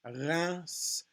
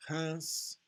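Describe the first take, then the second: First: "Reims" with a clearly voiced R, final S; R variant. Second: "Reims" with a soft French throat R; nasal "Reims", guttural R, final S; R variant. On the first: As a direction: say "Reims" as nasal "rass" with voiced R. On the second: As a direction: say "Reims" with R as light throat friction. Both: Shown as a demonstration. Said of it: "however you pronounce your R's".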